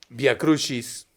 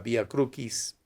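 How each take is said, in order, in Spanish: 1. Usa la pronunciación eclesiástica del latín. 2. Usa la pronunciación clásica restaurada del latín. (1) "En la forma eclesiástica" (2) "o en la forma restituta o clásica"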